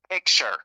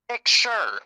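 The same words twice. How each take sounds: First: The word is said at normal speed. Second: The word is said slowly, drawn out.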